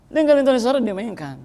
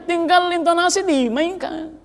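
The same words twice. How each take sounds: First: Said in the usual way. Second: Slow, lifted delivery of tinggal intonasi dimainkan; emphatic. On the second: Shown as a demonstration. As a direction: stretch out tinggal intonasi dimainkan to show the point.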